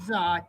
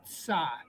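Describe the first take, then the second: First: The syllable starts with a plain z sound. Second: The syllable starts with a t then s sound. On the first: The speaker calls it wrong. "Not za" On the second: The speaker calls it right. "Start with the T, tsa"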